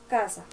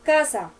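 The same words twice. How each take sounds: First: The word is said somewhat louder. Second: The word is said loudly and forcefully. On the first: "pero un poco más alto" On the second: "pero más duro"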